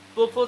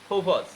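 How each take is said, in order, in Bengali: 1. p সাউন্ডগুলো আনঅ্যাসপিরেটেড। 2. p সাউন্ডগুলো aspirated. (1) "প্রপোজ এখন আর বলা যাবে না" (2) "পিরুচ্চন কি হয়? ফ"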